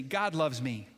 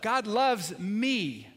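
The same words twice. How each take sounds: First: Said in the usual way. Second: Slow and louder, with conviction; said again, louder. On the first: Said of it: "just say this with me". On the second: Shown as a demonstration. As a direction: lean into "God loves me." slower and louder. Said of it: "Say it again".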